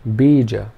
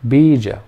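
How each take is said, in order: First: Only the first vowel is long. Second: Only the first vowel is long.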